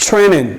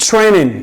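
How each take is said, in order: Both takes have the same delivery.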